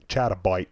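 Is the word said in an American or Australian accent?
Australian. It is said in an Australian accent.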